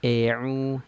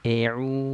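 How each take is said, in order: First: The first vowel is opened too little. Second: The first vowel is opened too little.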